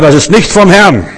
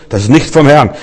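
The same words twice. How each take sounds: First: Stern rebuke. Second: Said in the usual way. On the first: Retold or imitated. Rebuking a sister in church.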